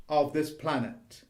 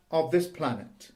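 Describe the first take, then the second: No difference in how they are said.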